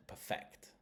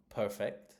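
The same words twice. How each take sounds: First: "perfect" stressed as per-FECT; weak PER, strong FECT in "perfect"; "perfect" as a verb, weight on the second syllable. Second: "perfect" stressed as PER-fect; "perfect" as an adjective, strong first syllable. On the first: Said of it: "Perfect is the verb". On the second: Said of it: "it's an adjective". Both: Shown as a demonstration.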